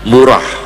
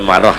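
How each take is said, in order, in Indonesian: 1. Vokal pertamanya "u" bulat. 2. Vokal pertamanya "a" terbuka. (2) "jangan dibaca marah ya"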